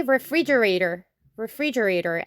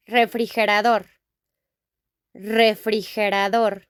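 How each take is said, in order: First: Said in the usual way. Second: Refrigerador with a tapped r, a breathy h for the g, ending -DOR; Spanish refrigerador. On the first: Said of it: "In English, we say". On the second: Shown as a demonstration. Teacher contrasting the Spanish word with English, Spanish sounds. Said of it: "we say".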